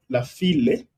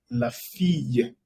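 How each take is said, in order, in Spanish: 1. La doble L se pronuncia como una L. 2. La doble L se pronuncia como una Y. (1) "esto no se pronuncia la fille" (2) "se pronuncia la fille"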